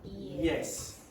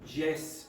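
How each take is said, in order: First: The word begins with a Y sound. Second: The word begins with a J sound. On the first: The speaker calls it right. "say yes" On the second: The speaker calls it wrong. "instead of saying Jess"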